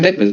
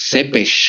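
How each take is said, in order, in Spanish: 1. Empieza con t y termina en s. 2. Empieza con ts y termina en sh. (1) "la pronunciación no es" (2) "es sepesh, creo"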